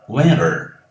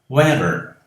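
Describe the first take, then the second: No difference in how they are said.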